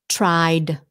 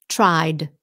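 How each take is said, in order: No difference in how they are said.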